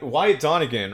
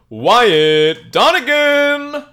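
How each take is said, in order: First: It is said in a plain speaking voice. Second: It is said in a booming announcer voice.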